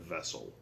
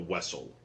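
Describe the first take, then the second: First: The word begins with a V sound. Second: The word begins with a W sound. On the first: It is the ordinary pronunciation. "instead of Vessel" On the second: It imitates the character's Russian-accented speech. "he flipped his V's and W's, so it was still Wessel"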